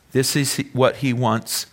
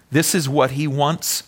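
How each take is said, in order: Both takes have the same delivery.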